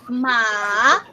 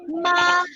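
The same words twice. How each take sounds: First: The pitch falls and then rises. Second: The pitch stays level and high. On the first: "the downward and upward motion of your voice" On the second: "it is in the first tone"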